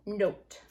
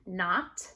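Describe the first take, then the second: First: Note with long oh. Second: Not with short ah. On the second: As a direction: say Not with the ah of hot. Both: Shown as a demonstration. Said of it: "big difference".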